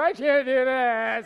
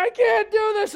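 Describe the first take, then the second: First: Slow, stretched-out comic wail; mock breakdown. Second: High, loud mock-distraught cry; imitated wailing. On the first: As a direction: whine it out like a hammed-up tantrum. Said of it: "get on the floor and go". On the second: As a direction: imitate a panicked wife wailing. Imitating the crying wife again.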